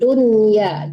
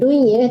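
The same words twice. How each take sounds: First: The n sound is pronounced clearly and distinctly. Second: The n sound is blurred into the y. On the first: The speaker calls it right. "Harus jelas dunya" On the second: The speaker calls it wrong. "Jangan disamarkan ke ya"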